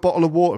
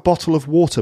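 First: The T sound is dropped as a glottal stop. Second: The T sound is clearly pronounced. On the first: "So it's not" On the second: "No glottal stops, so none of those dropped T sounds"

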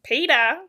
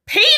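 First: The name is said at normal volume. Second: The name is screamed loudly.

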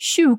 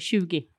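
First: The word ends in an 'o' vowel. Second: The word ends in an 'e' vowel.

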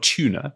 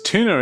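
First: It is said with a British pronunciation. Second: It is said with an American pronunciation.

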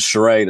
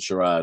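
First: The word is said with an American pronunciation. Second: The word is said with a British pronunciation. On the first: "in the States" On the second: "in England"

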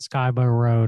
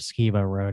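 First: The first syllable rhymes with 'sky'. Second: The first syllable rhymes with 'ski'. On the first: This is how people from the south say it. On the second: This is how people from elsewhere say it.

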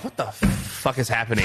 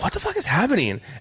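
First: It sounds annoyed and disapproving. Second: It sounds amused and delighted.

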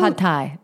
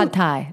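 First: It is said with a Thai-style accent. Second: The same.

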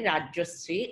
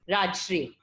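First: A short vowel comes between Raj and shri. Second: Raj and shri are joined with no vowel between. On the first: This is how other people say the name. The speaker calls it right. "Why other people say Rajyushri?" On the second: This is how Punjabis in Delhi say the name. The speaker calls it wrong. "the way Punjabis in Delhi pronounce my name"

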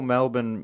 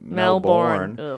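First: The last syllable is reduced, like 'burn'. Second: The last syllable is full, like 'born'. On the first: The speaker calls it right. "it's like a third degree burn" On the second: The speaker calls it wrong. "Americans call Melbourne Melbourne"

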